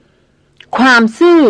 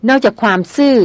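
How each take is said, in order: First: ความซื่อ flung back higher, slow and drawn out, almost shouted; near-shout. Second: Said in the usual way. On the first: A narrator's reading. The hunter throws her word back at her: near-shout. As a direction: hurl ความซื่อ back in disbelief, nearly yelling. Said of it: "ร้องออกมาเกือบเป็นตะโกน". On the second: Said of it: "พูดเสียงเบาอ่อนหวาน".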